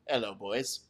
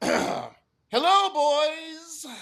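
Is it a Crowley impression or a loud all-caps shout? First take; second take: Crowley impression; loud shout. First: It is said in a Crowley impression. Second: It is shouted loudly, as in all caps.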